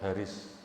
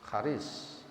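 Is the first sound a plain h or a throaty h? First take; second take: plain h; throaty h. First: It starts with a plain, light h. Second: It starts with a throaty, breathy Arabic h. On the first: The speaker calls it wrong. "Diwaca Haris" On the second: The speaker calls it right. "Aslinya H"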